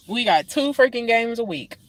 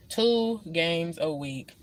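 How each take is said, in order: First: Said in the usual way. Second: Two games a week said much softer and slower; weary quiet repeat. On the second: Real, not acted. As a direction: let Two games a week sink into a tired murmur. Repeats complaint, then fades.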